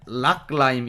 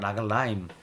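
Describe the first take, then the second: First: The g closes the first syllable without a vowel. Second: A short vowel is heard after the g. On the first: "엄밀히 말하면 락라임 이런 느낌인데" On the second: "라글라임이죠"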